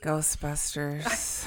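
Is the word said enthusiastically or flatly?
flat. The word is said flatly, without enthusiasm. The speaker calls it wrong.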